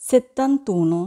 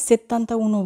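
First: Said in the usual way. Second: "settanta uno" said as two separate words with a break before uno; wrong split form. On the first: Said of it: "আমরা বলবো". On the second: Shown as a demonstration. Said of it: "বলবো না".

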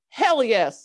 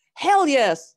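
First: Emphatic yes. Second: Louder, higher "Hell yes"; louder emphatic yes. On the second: Father answering his son eagerly, a louder "Hell yes". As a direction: punch "Hell yes" harder. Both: A narrator's reading. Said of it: "said the father".

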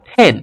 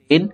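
First: পেন with a puffed p, "phen"; aspirated P. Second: Said in the usual way. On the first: Shown as a demonstration. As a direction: burst air into পেন. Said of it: "ফ এর মতো হবে". (পেন-কে "ফেন" উচ্চারণ) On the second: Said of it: "পি এর উচ্চারণটা ফ".

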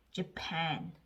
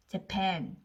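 First: Japan with a reduced first vowel, 저팬. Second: Japan misread with a first syllable like 제; wrong J vowel. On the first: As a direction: say Japan as 저-PAN, not 제팬. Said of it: "J는 저 소리가 나니까". (Japan을 제가 아닌 저 소리로 시작) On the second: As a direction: say Japan as 제팬, reading J by its letter sound. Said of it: "즈로 읽으면". (Japan을 제팬처럼 잘못 읽기) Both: Shown as a demonstration.

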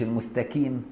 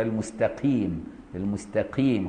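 First: المستقيم with a full ك for ق; kaf for qaf. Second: المستقيم with ق leaning towards ك, quiet; softened qaf. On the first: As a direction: say المستقيم as 'mustakim'. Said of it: "مش". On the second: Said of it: "رققها شوية". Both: Shown as a demonstration.

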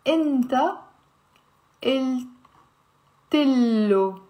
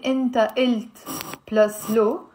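First: "inta... il... tillo" with long pauses between chunks; "inta il tillo", short i after the t, long l; linked, slow syllable breakdown. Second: "inta ilt", hard final t, then "lo" apart; "ilt" ending on the t, no vowel before "lo"; unlinked pronunciation. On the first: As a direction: carry the t into "tillo" and hold the double L. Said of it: "We will say". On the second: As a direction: say "inta ilt plus lo" as separate pieces. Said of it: "we're not gonna say". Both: Shown as a demonstration.

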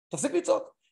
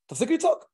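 First: Said in the usual way. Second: High, louder snap of stop yelling; raised stop yelling. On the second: Retold or imitated. Therapist voicing a partner's plea, raised and high. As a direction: call it out sharply, up high. Telling an angry spouse to stop.

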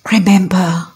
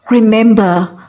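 First: Hushed whispered Remember, pulled in close; whispered Remember before the point. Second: Said in the usual way. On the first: Real, not acted. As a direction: breathe the word Remember as a secret. Preacher hushes before a key point.

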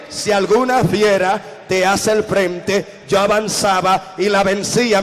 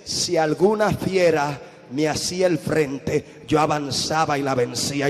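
First: Slow, firm, emphatic second reading; emphatic reread. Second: "Si alguna fiera me hacía el frente" read slowly, lower and softer, like a first hesitant read; slow muted first reading of the verse; slow quiet reading. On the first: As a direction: read it right this time, proclaiming it. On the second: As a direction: read it cautiously, slowly and low. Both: Retold or imitated. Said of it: "Lee bien".

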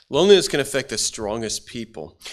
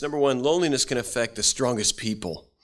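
First: "Loneliness" hit harder, the whole line louder; emphatic repeat. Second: Said in the usual way. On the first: Shown as a demonstration. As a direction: repeat it to drive the point home. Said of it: "repeated for emphasis". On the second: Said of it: "repeats the line".

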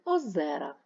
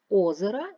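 First: Озера with a long, stressed -зе-; stress on second syllable. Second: Озера with a loud, long first О; stress on first syllable. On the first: Teacher comparing two forms, second-syllable stress on озера. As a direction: hit the middle syllable of озера. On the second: Teacher comparing two forms, first-syllable stress on озера. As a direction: punch the opening vowel of озера. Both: Shown as a demonstration. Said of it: "Наголос може змінювати значення".

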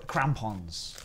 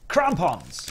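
First: Said in the usual way. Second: "Crampons" punched louder and higher, falling at the end; emphatic repeat. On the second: Pretend. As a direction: exclaim "Crampons" with relish. Repeats a word he relishes.

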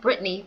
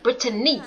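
First: "Brittany" in two syllables, BRIT-nee; two-syllable pronunciation. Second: "Brittany" in three syllables, BRIT-uh-nee; three-syllable pronunciation. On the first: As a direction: drop the middle vowel of "Brittany": Brit-nee. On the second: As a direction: keep the middle vowel of "Brittany": Brit-a-nee. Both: Shown as a demonstration. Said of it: "Her name is not Brittany".

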